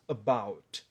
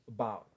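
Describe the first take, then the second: First: "about" with a released final T; careful, slow "about" with crisp T; fully pronounced T. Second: "about" ending as "abou", T unreleased; dropped T. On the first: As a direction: hit the T at the end of "about". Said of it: "eu não pronunciei esse T". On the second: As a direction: leave the T off the end of "about". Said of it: "Eu fiz about". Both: Shown as a demonstration.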